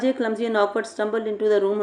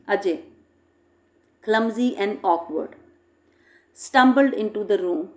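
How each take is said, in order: First: It runs on without pauses around the phrase. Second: There are short pauses around 'clumsy and awkward'. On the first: The reader cannot tell what the writer means. The speaker calls it wrong. "there is no use of comma there" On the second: The reader can follow the description easily. The speaker calls it right. "by putting a comma"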